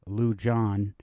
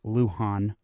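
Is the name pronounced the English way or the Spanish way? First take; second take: English; Spanish. First: The name is said with English pronunciation. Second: The name is said with Spanish pronunciation. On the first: The speaker calls it wrong. "it's not Lujan" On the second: The speaker calls it right. "it's Lujan"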